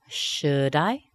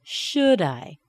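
First: Slow "should I" rising sharply on "I"; questioning "should I", going up; rising intonation. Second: "Should I" stressed on "Should", falling on "I"; "Should I" going down at the end; falling intonation. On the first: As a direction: lift "I" at the end of "should I". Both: Shown as a demonstration. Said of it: "and falling back down".

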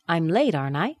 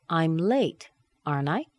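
First: Whole line lifted to a rise on "late"; rising tag. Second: "aren't I" rising up as a real question; rising tag. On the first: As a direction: ask it with an upward lilt. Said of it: "intonation going up". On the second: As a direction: lift the tag up. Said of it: "Let's do the intonation going up". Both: Shown as a demonstration.

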